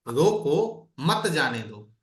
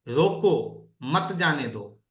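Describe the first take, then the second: Both takes have the same delivery.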